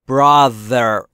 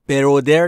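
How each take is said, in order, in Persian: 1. صامت میانی یک صدای th واکدار است. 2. صامت میانی یک صدای d سخت است. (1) "زبونت زیر نیش دندون بالا" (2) "برودر نیست عزیزان دلم"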